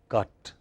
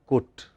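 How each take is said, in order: First: The vowel is the usual open 'uh' sound. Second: The vowel sounds like the one in 'put'. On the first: This is the usual pronunciation elsewhere. "not cut" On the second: This is a regional English pronunciation. "in many parts of England in particular, C U T is also cut"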